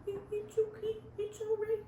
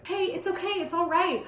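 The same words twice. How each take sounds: First: Tiny, high, soft coo; exaggerated cooing. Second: Higher-pitched reassurance at normal volume; cooing. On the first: Shown as a demonstration. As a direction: coo very softly, like to a baby. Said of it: "Is that what I'm supposed to do?". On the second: A narrator's reading. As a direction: coo lightly to comfort someone. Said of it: "I coo".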